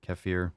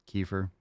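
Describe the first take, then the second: First: "Kefir" said keh-FEER; "Kefir" as keh-FEER, matter-of-fact; own pronunciation. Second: "kefir" said KEE-fer; "kefir" as KEE-fer, softly; alternate pronunciation. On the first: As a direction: say "Kefir" with a short first vowel and an ee ending. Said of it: "You pronounce it ke-, kefir?". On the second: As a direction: say "kefir" with a long ee first, ending in -fer. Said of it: "It doesn't matter". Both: Shown as a demonstration.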